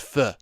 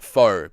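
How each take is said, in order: First: The vowel sounds like the 'u' in 'duh'. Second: The vowel sounds like the 'o' in 'go'. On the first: The speaker calls it right. "apparently the correct way to say it is pho" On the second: The speaker calls it wrong. "I go around calling it faux"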